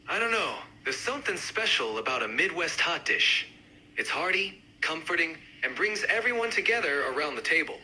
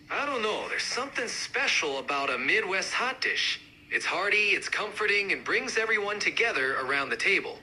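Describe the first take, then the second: First: Lightly done Midwestern accent. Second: More pronounced Midwestern accent; amped-up Midwest accent. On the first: Hot dish fan joining the debate, mild Midwest accent. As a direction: give it a hint of the Midwest. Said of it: "each accent, uh, represented by a speaker". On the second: Hot dish fan joining the debate, amped-up Midwest accent. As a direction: push the Midwest sound. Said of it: "really amp up the accents". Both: Shown as a demonstration.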